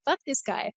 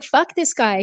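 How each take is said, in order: First: Muttered under breath. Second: Said in the usual way. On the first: Retold or imitated. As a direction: mutter it to yourself. Retold venting, said much softer.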